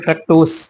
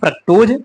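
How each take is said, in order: First: The word ends with an 's' sound. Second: The word ends with a 'z' sound. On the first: "या फिर" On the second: "चाहे जा भी लिख सकते हैं"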